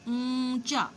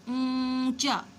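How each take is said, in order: Both takes have the same delivery.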